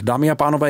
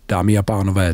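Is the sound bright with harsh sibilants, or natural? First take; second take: bright; natural. First: The sound is bright with very sharp sibilants. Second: The sound is natural with softer sibilants. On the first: "jakmile budu na jasném ekvalizéru, jsou tady neskutečně výrazný sykavky" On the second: "Přirozený"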